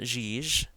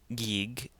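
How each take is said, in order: First: It starts and ends with a soft J. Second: It starts and ends with a hard G. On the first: "It's not Jij" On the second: "it's not Gig"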